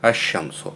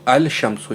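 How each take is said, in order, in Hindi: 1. 'l' दोहरे 'sh' की आवाज़ में समा जाता है। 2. 'l' 'sh' की आवाज़ से पहले साफ़ सुनाई देता है। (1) "पढ़ोगे क्या? अशमसो" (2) "यहाँ पर गलत है"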